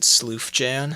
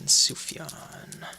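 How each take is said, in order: First: The name is said with an L sound. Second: The name is said without an L sound.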